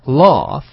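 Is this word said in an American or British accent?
British. It is said in a British accent. "英式读的是laugh"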